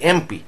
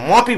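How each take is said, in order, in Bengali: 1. এটি m-এর আগে e স্বরধ্বনি দিয়ে শুরু হয়। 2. এটি সরাসরি m ব্যঞ্জনধ্বনি দিয়ে শুরু হয়। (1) "আমরা বলি এমপি" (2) "মপি বলি না"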